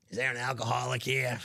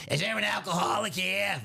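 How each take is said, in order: First: Repeating the prank line, calmer; prank caller voice. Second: Hammed-up barroom shout; mock shouted question. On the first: Shown as a demonstration. Host repeats the customer's prank line, muted. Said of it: "that hurts my voice doing that". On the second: Customer prank line, called out in a mock shout. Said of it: "he likes to pull the old".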